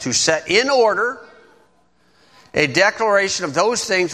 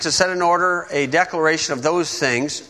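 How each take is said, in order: First: The phrase is read slowly. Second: The phrase is read quickly. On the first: The speaker calls it right. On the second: The speaker calls it wrong.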